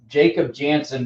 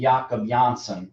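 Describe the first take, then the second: First: The name begins with an English J sound. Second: The name begins with a Y sound.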